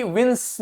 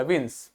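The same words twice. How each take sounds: First: विंस with the final स dragged out; wrong-way demo of विंस, lingering on the ending; overdone ending sound. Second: विंस with a short, soft final स; soft, low विंस without lingering on the ending; minimal ending sound. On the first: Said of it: "नहीं बोला". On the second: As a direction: keep the end of विंस light. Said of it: "ये कम से कम आए". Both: Shown as a demonstration.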